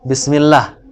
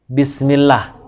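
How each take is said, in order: First: The word ends on the consonant, final vowel dropped. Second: The word ends on the consonant, final vowel dropped.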